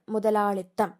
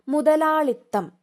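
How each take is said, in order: First: Said in the usual way. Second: മുതലാളിത്തം higher, louder and slowed; announced word. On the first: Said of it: "ഇത്തായാണ്". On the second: Shown as a demonstration. Teacher announcing the word to exam students, raised and slow. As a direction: call out മുതലാളിത്തം slowly and emphatically. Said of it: "മുതലാളിത്വം അല്ല".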